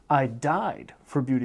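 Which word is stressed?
died. The stress is on the word died. The person died for it rather than lived for it. "I died for beauty as opposed to living for it"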